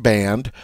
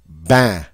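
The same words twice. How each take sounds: First: Said in the usual way. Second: "Ban" as band stopped just before the N; nasal "Ban" with no final N sound; nasal vowel. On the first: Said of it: "So say the word band". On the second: Shown as a demonstration. Teacher demonstrating French nasal vowel, stopped before N. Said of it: "stop just before you get to the N".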